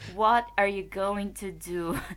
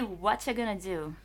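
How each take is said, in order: First: Every word is said fully and separately. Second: The words are reduced and run together. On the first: The speaker calls it wrong. "ninguém ... vai" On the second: The speaker calls it right. "Isso aí você vai ouvir"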